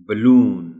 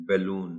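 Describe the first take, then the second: First: Balloon said loud and clear, correctly; correct pronunciation. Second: Balloon said softly the wrong way; wrong pronunciation. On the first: Shown as a demonstration. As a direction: say balloon right with stress on LOON. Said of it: "The word correctly pronounced is". (balloon सही और ज़ोर से) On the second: Retold or imitated. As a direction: show how children say balloon wrong. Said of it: "they may be pronouncing it as". (balloon ग़लत तलफ़्फ़ुज़)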